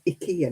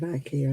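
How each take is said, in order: First: It is said the Scandinavian way. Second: It is said the usual English way. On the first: The speaker calls it right. "we're supposed to say IKEA now" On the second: The speaker calls it wrong. "instead of IKEA"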